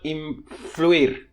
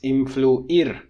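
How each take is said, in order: First: The u and i glide into one diphthong. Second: The u and i are two separate vowels. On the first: The speaker calls it wrong. "So it's not influir" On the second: The speaker calls it right. "Two separate monophthongs. They're not one diphthong"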